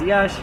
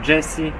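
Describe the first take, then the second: First: The name sounds like the single syllable Yash. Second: The name sounds like the English name Jessie. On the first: The speaker calls it right. "używajmy lepiej oryginalnych nazw" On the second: The speaker calls it wrong. "a nie jakieś Jessie"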